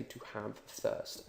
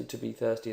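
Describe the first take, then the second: First: "to have thirst" slow and near whispered; right literal phrase. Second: "to be thirsty" said plainly in English; the phrase you don't use; wrong English phrasing. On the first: Teacher gives the right phrasing, "to have thirst" slow and hushed. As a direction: softly model "to have thirst". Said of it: "you say". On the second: Teacher shows the wrong version, "to be thirsty" plainly. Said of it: "you don't say". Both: Shown as a demonstration.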